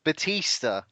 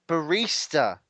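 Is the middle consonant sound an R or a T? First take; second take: T; R. First: The middle consonant is a T sound. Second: The middle consonant is an R sound. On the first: The speaker calls it wrong. "I thought it was pronounced Batista" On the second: The speaker calls it right. "Is that how you pronounce it?"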